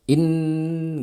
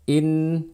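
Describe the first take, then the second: First: The vowel is jerked out too quickly. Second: The vowel is given its full, complete sound. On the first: The speaker calls it wrong. "menghentaknya terlalu cepat" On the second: The speaker calls it right. "lafalkan kasroh hamzah dengan sempurna"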